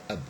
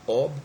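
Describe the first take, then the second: First: The syllable has a reduced schwa vowel. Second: The syllable has a full, clear vowel. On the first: It is the verb's first syllable. "ab is a syllable which contains schwa" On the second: It is the noun's first syllable. "the first syllable which is stressed and it has got a long vowel"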